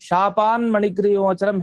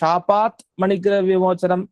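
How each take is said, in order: First: The first word ends in an n sound. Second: The first word ends in a t sound. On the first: The words are joined by a sound change. "ಸಂಧಿ ಮಾಡಿಯೂ ಹೇಳ್ಬೋದು" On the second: The words are kept separate without joining. "ಮಾಡ್ದೇನೂ ಹೇಳ್ಬೋದು"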